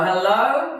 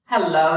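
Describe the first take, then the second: First: Higher, louder hello with a lift at the end; calling out, rising. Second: Loud greeting called across the yard; calling out. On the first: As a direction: sing it up as you call across the drive. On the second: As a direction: call it out to the boys from the car. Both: Acted. He called out to them.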